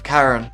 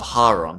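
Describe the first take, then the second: First: The name is said the American way. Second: The name is said the Greek way. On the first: "in America, I think it's" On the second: "in Greek, it's"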